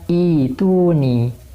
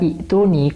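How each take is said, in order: First: A long i vowel flows straight into the t. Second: A glottal stop is heard before the t. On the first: The speaker calls it right. "yang benar adalah dibaca Ituni" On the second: The speaker calls it wrong. "kebanyakan orang-orang awam itu membaca I'tuni"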